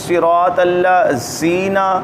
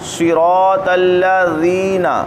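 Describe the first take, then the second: First: The consonant is a hissing z sound. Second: The consonant is a soft th-like sound. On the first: The speaker calls it wrong. "तो ये ज़ा बन गया, ज़ाल नहीं रहा।" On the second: The speaker calls it right. "ज़ुबान ऊपर के दांतों से लगाएंगे।"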